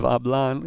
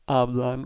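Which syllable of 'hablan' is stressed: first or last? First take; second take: last; first. First: The stress is on the last syllable. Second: The stress is on the first syllable. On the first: The speaker calls it wrong. "instead of" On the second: The speaker calls it right. "with a stress on the first syllable"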